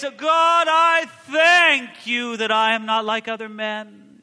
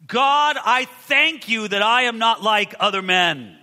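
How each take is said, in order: First: Shouted high, slow, grandly showy; mock-grand booming Pharisee prayer; pompous showy prayer. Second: Louder, slowed, self-satisfied prayer; a touch of pompous Pharisee, slow and loud; proud Pharisee. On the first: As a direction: perform the prayer so everyone hears. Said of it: "There's something musical and beautiful about it". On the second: Retold or imitated. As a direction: pray as if pleased with yourself. Preacher voicing the proud Pharisee.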